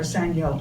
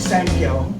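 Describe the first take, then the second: First: The word is said as 'sangyo'. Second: The word is said as 'sankyo'. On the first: "or sangyo" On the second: "I usually say it wrong, like sankyo"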